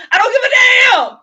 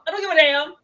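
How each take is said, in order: First: High, loud, near-sobbing yell; furious crying shout. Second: The same line again, a notch louder than usual; milder repeated shout. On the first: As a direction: scream it out, at the breaking point. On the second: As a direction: still angry but coming down. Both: Retold or imitated. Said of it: "But it wasn't one of them".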